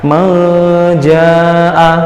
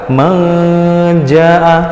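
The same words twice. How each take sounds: No difference in how they are said.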